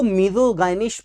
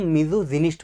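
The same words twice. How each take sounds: First: "मिसोगाइनिस्ट" with a hard g and long "गाइ"; hard-g variant reading. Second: "मिसोजिनिस्ट" with a soft j sound and short i; soft-g preferred reading. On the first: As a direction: say "मिसोगाइनिस्ट" with "guy" in the middle. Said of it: "कुछ बच्चे इसको मिसोगाइनिस्ट पढ़ते हैं". ("मिसोगाइनिस्ट" में "गाइ" का उच्चारण) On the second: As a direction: say "मिसोजिनिस्ट" with "jin" in the middle. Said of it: "लेकिन इसको हम मिसोजिनिस्ट पढ़ेंगे". ("मिसोजिनिस्ट" में "जि" का उच्चारण) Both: Shown as a demonstration.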